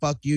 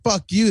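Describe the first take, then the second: First: It sounds insulting and hostile. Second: It sounds admiring and impressed. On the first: You are bad. "you suck" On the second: That was really good. "that was good"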